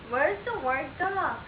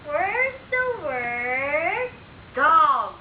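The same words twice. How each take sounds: First: Said in the usual way. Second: Long, sing-song teaching question; drawn out like a game show reveal; slow drawn-out question. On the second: Shown as a demonstration. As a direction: stretch every word out slowly for a toddler. Parent drills child on word cards.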